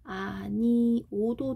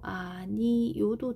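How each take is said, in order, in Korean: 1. 마지막 모음은 그냥 o이고 활음은 없어요. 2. 마지막 모음에 y 활음이 있어서 yo로 들려요. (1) "아니오도 되고" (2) "아니요도 돼"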